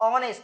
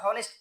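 First: The word starts without an h sound. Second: The word starts with an h sound. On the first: The speaker calls it right. "এইচ এর উচ্চারণ কি হয়ের মতো হচ্ছে? না" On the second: The speaker calls it wrong. "এটা আবার হনেস্ট করো না কেউ"

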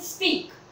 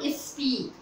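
First: The word begins directly with the s sound. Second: An extra e vowel comes before the s. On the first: The speaker calls it right. "स्पीक sound कैसे निकालेंगे" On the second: The speaker calls it wrong. "Not is स्पीक, ई का sound नहीं आना चाहिए"

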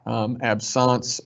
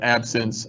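First: The word is given a French pronunciation. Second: The word is given an English pronunciation. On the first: "It is the French pronunciation" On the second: "use the King's English and call it like it's spelled"

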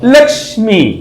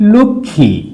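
First: The cluster sounds like ksh, with k and s. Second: The cluster sounds like kkh, without an s. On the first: This is the Hindi pronunciation. "Hindi ভাষায় যখন এটা উচ্চারণ করে তখন ওরা বলে লক্ষ্মী" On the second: This is the Bengali pronunciation. "আমরা লিখি লক্ষ্মী"

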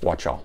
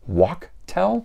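First: The middle consonant is a ch sound. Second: The middle consonant is a hard k sound. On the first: "C-H is ch, not ka, so I'm going with" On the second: "somebody else had told me I should pronounce that as"

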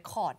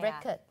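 First: It is said the common Thai way. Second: It is said the English way. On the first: The speaker calls it wrong. "คนไทยชอบอ่าน" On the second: The speaker calls it right. "จริงๆต้องอ่านว่าอะไร"

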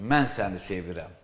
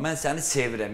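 First: The stress falls on the word mən. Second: The stress falls on the word sevirəm. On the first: It is the speaker, not someone else, who loves. "Yəni, başqası sevmir, mən səni" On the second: The feeling is love, not a plain attitude. "sənə sadə münasibət bəsləmirəm, sevgi"

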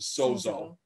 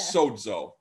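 First: The middle consonant is a plain z sound. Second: The middle consonant is a dz sound. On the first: "We often pronounce it sozo" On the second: "Technically, it's sozo, Like soda"

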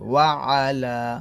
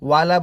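First: A clear throat consonant comes before 'ala'. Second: No throat consonant comes before 'ala'. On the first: The speaker calls it right. "এই আইন উচ্চারণটা এখানে নিয়ে আসবেন ক্লিয়ার করে" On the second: The speaker calls it wrong. "ওয়ালা বলবেন না"

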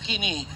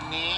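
First: The word begins with a k sound. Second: The word begins with an n sound. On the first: The speaker calls it wrong. "Anong kini?" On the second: The speaker calls it right. "Wala yung K. Silent K"

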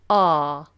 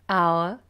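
First: The vowel is one long open sound. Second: The vowel glides as a diphthong. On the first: "long vowel" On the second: "they use a diphthong"

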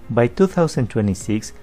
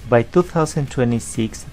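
The two takes are said the same way.

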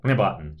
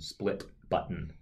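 First: The word split is slurred and hard to understand. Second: The word split is pronounced clearly and distinctly. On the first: An older screen reader version said it this way. The speaker calls it wrong. "would not even pronounce the word split understandably" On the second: The current screen reader version says it this way. The speaker calls it right. "Now it's very clearly saying split button"

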